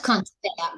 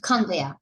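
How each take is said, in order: First: "conveyor" with an audible T after the n; "conveyor" said as "kahnt-bear", T released; T pronounced. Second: "conveyor" with no T after the n; "conveyor" as British can't bear, T left silent; T dropped. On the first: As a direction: sound the T in "conveyor", as in can't bear. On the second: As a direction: run "conveyor" together as "kahn-bear". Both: Shown as a demonstration. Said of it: "try not to pronounce T".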